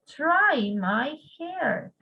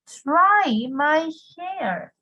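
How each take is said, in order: First: "Try my hair" again slowly, "Try" falling; calm slow repeat for students to copy; slow model repeat. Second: "Try my hair" drawn out very slowly, stress on "Try"; slow model phrase. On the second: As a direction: stretch each word of "Try my hair" for the class. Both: Shown as a demonstration. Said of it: "significa try my hair".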